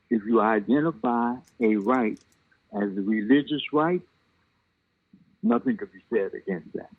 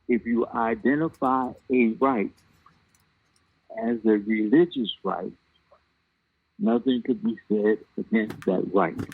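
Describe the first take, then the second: First: It is said at a normal speed. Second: It is said slowly.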